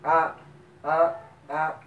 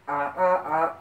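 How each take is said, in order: First: The syllables are short but read slowly. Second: The syllables are short and read quickly.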